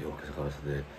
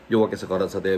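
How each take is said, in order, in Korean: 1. 작은 목소리로 말합니다. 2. 큰 목소리로 말합니다. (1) "한 오 분 지나면 조용하게" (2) "되게 좀 목소리 크게 합니다"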